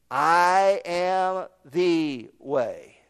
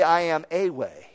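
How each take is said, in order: First: "I am the way" very slow, "the" underlined; stress on THE. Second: "I am a way" said lightly, "a" unstressed; wrong version. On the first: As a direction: lean on "the", slowly. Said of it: "Underscore the word "the". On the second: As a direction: toss off "a way" as the wrong wording. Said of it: "He didn't say". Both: Shown as a demonstration.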